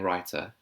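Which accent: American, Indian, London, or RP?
RP. It is said in a received pronunciation accent. "in her received pronunciation"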